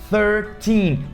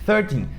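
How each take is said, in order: First: The stress is on the last syllable. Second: The stress is on the first syllable. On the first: It clearly means thirteen. The speaker calls it right. "a sílaba tônica... é no teen, no final" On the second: It sounds like the word for thirty. The speaker calls it wrong. "muita gente pronuncia thirteen"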